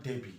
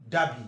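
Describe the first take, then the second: First: "Derby" said as "DEH-bee"; mispronounced Derby. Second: "Derby" said as "DAH-bee"; long A. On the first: Teacher shows the wrong city name, "Derby" as "DEH-bee". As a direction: use an "eh" in the first syllable of "Derby". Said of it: "not Derby". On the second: Teacher gives the English city's name, "Derby" as "DAH-bee". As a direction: open the first vowel of "Derby" into a long "ah". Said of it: "Derby is a long R". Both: Shown as a demonstration.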